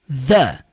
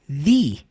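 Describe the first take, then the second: First: The vowel sounds like a short 'uh'. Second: The vowel sounds like a long 'ee'. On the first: The next word begins with a consonant sound. "Som do a" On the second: The next word begins with a vowel sound. "a próxima palavra começa com som de vogal"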